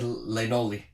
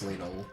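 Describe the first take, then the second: First: The name ends with an extra 'ee' syllable. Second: The name ends without an extra syllable. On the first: The speaker calls it wrong. "When I was a kid, I said Lenoli, like cannoli" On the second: The speaker calls it right. "I guess it's Lenol"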